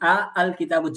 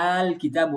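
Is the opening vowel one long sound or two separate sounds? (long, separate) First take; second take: separate; long. First: The two opening vowels are said separately. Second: The opening vowels merge into one long vowel. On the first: "যখন আ আল কিতাবু ছিল" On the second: "লম্বা কইরা একসাথে মিলিয়ে পড়ে তাহলে আল কিতাব বলতে হবে"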